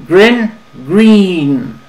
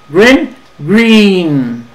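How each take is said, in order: Both takes have the same delivery.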